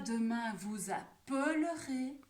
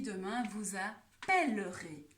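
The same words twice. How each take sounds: First: The L in appellerez is weak and reduced. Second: The L in appellerez is clearly heard. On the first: The speaker calls it wrong. "On ne dit pas" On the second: The speaker calls it right. "j'entends donc bien le L"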